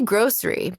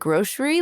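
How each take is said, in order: First: The middle consonant is a plain s sound. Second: The middle consonant is a sh sound. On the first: "I say grocery" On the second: "like a little bit with like a sh sound"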